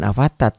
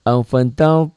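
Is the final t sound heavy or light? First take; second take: light; heavy. First: The final t is light, with an open a. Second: The final t is heavy, sounding like to. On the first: The speaker calls it wrong. "jangan afatat ya" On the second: The speaker calls it right. "Ta ini to"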